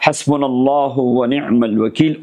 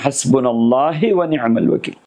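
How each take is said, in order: First: हस्बुनल्लाहु ending in a clear "-hu"; correctly recited wazifa. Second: हस्बुनल्लाहि with "-he" in place of "-hu"; imitated mispronunciation. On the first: Shown as a demonstration. Sheikh giving people a wazifa to read, correctly recited with "-hu". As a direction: recite हस्बुनल्लाहु with a final "oo" vowel. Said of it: "बहुत सारे लोगों को वजीफ़ा दिया". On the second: Sheikh showing how people misread the wazifa, imitated slip to "-he". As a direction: mimic the slip, ending हस्बुनल्लाहि in an "eh/ee" vowel. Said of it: "वो पढ़ते हैं".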